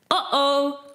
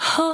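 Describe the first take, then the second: First: The vowel starts with a sharp glottal catch. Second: The vowel starts with an audible breathy h. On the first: The speaker calls it right. "Dat is een glottale aanzet" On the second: The speaker calls it wrong. "heb je de luchtige aanzet"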